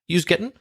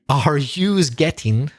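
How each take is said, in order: First: It is said quickly as a shortened phrase. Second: It is said slowly with every word spelled out. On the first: "I'll do it quick first" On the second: "I'll break it down"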